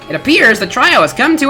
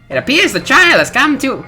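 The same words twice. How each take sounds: First: It is read in a plain accent. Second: It is read in a British accent.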